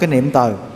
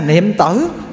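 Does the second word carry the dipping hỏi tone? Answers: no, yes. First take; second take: no; yes. First: The second syllable lacks the dipping hỏi tone. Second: The second syllable has the dipping hỏi tone. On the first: "nó bỏ một cái dấu hỏi thôi" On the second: "hai chữ này, nó bỏ một cái dấu hỏi thôi"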